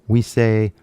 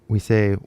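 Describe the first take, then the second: The two takes are said the same way.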